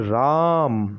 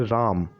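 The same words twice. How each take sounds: First: The vowel is drawn out about three times longer. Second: The vowel is said at normal length.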